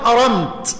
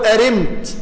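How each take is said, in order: First: The vowel after the r is a short a. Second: The vowel after the r is a short i. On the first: "كلاهما صحيح بالفتح والكسر" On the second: "كلاهما صحيح بالفتح والكسر"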